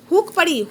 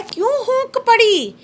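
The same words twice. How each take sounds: First: Said in the usual way. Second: Slow, drawn-out recital of a poem line, pitch up; poem recitation. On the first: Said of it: "हूकना होता क्या?". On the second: Shown as a demonstration. Teacher reads the poem line to students, slow recital. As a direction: recite it like verse to the class. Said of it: "कवि कहता है".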